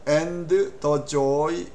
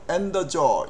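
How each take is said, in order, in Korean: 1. 각 단어를 하나씩 따로 발음합니다. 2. 단어들을 한 단어처럼 붙여서 발음합니다. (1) "이렇게 한 단어 한 단어를 하지를 절대로 않습니다" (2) "붙여서 한 단어처럼"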